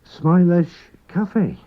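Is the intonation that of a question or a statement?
question. It has the intonation of a question. Asks whether he likes coffee. "you just simply use voice inflection"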